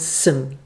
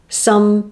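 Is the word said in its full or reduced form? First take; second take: reduced; full. First: The word is said in its reduced weak form. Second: The word is said in its full strong form.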